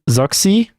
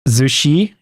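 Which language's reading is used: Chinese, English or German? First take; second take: English; Chinese. First: The name is read the English way. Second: The name is read the Chinese way. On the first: "I don't know if that's like supposed to be read in English, but let's say Zoxy" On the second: "something like Zushi, if it's more like uh, Chinese"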